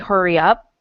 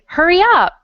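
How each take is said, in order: First: It is said calmly, as a plain statement. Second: It is said excitedly, as an exclamation.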